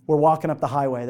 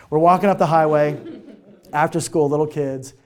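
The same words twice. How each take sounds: First: Said in the usual way. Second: Laughing. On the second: Real, not acted. Repeats the line, laughing.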